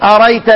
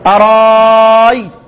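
First: The middle hamza is dropped entirely. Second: The middle hamza becomes a long drawn-out vowel. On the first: "شال عين الفعل" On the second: "بتحط الف مكان الهمزة"

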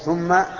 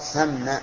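First: The first vowel is a rounded 'u' sound. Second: The first vowel is an open 'a' sound. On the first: The speaker calls it wrong. "أن يضم الساء من ثم ... وهذا خطأ" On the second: The speaker calls it right. "وظل مكان أن يقال ثم"

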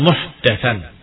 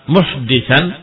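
First: The vowel after the d is a. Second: The vowel after the d is i. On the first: Something newly introduced. "dan juga dengan fathah" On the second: Someone who introduces a new matter. "dengan dikasrahkan di dal"

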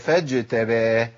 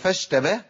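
First: The consonant before the t is a j sound. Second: The consonant before the t is an sh sound. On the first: The speaker calls it right. "ولا فج" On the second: The speaker calls it wrong. "هي فش"

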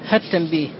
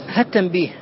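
No difference in how they are said.

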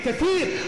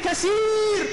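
First: The middle consonant is a 'th' sound. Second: The middle consonant is an 's' sound. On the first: The people would be many. The speaker calls it right. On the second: The people would be broken. The speaker calls it wrong.

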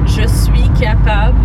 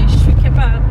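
First: It is said in a careful, standard way. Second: It is said in a casual, colloquial way. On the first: "instead of je suis capable" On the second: "you're saying it in a colloquial"

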